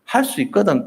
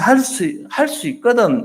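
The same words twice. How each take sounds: First: "할 수 있거든" raised higher, pointing out the doubt; stressed "if you can". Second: "할 수 있거든" lifted much higher in doubt; doubting "if you can". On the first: Shown as a demonstration. Preacher explaining the father's words: "할 수 있거든" raised higher. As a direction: lean on "있거든" to show the hidden doubt. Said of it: "할 수 없으면 할 수 없고요". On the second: Retold or imitated. Father pleading to Jesus: "할 수 있거든" high and doubtful. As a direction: stress "있거든" as a doubtful condition.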